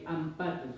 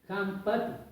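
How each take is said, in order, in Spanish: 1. La palabra empieza directamente con una vocal. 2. La palabra empieza con una h gutural. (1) "no suena con la H como está escrito ahí ampatu" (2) "sino con la J, podría decirle"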